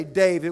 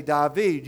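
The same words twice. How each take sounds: First: Said in the usual way. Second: "David" said the Cajun way, TIE-veed with the stress at the end. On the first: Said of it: "we say David". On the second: Shown as a demonstration. Preacher showing how Cajuns say "David", Cajun pronunciation. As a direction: say "David" like in South Louisiana, dah-VEED. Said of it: "you say David".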